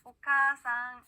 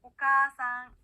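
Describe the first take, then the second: First: 오카아상 slow and loud, with the 카아 drawn out; slow long vowel. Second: 오카아상 loud, with the 카아 held long; teacher model of 오카아상, the long 카아; long vowel, loud. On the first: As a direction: drill the long 카아 in 오카아상 slowly. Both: Shown as a demonstration. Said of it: "한번 따라해볼게요".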